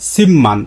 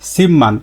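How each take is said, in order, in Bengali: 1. প্রথম সিলেবলটি m ধ্বনি দিয়ে শেষ হয়। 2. প্রথম সিলেবলটি m ধ্বনি দিয়ে শেষ হয়।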